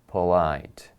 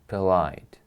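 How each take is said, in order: First: The first vowel is a full o sound. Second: The first vowel is a weak u sound. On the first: The speaker calls it wrong. "we do not say polite" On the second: The speaker calls it right. "There is a U sound"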